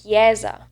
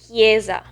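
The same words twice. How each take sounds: First: "chiesa" as kyeh-za, e wide open; Tuscan open E. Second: "chiesa" as kyay-za, e tight without glide; North-eastern "chiesa" with closed e. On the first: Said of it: "more like the Tuscan variant". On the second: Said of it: "with the E sound, so the closed E". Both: Shown as a demonstration.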